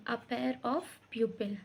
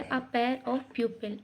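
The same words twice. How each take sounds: First: "a pair of pupil" spelled out very slowly, word by word; slow dictation. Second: Said in the usual way. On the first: Shown as a demonstration. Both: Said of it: "तो हम वहाँ बोलेंगे".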